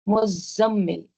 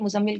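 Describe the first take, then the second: First: The z sound is held long, doubled. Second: The z sound is short, not doubled. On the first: The speaker calls it right. "ज़ाई के ऊपर भी तशदीद है" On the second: The speaker calls it wrong. "ज़ाई के ऊपर तशदीद नहीं पढ़ते ... लेकिन वो गलत है"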